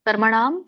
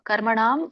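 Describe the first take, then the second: Both takes have the same delivery.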